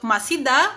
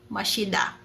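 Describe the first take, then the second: First: The middle consonant is a plain s sound. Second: The middle consonant is an sh sound. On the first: The speaker calls it wrong. "instead of masida" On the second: The speaker calls it right. "magiging mashida"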